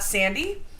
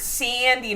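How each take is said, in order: First: The word has a plain, neutral vowel. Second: The word has a strong regional Midwest vowel. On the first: This is not how people there say it. "not sandy" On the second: This is how people there say it. "once you get into like where Jason is, it's it's sandy"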